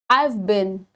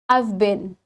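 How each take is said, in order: First: Have is shortened into the previous word. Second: Have is shortened into the previous word.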